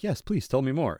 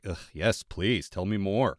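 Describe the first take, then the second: First: It is said in an eager, sincere tone. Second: It is muttered in a grudging, eye-rolling tone.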